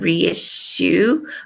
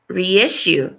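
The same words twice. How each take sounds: First: The word is run together like resu. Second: The word is said as re plus issue. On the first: The speaker calls it wrong. "So I kept saying reissue" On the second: The speaker calls it right. "but it's reissue"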